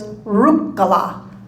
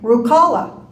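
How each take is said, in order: First: The stress falls on the first syllable. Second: The stress falls on the second syllable. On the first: This is the Finnish pronunciation of the name. The speaker calls it right. "the first syllable is always stressed" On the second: This is how outsiders say the name. The speaker calls it wrong. "we grew up hearing everyone say Rukala"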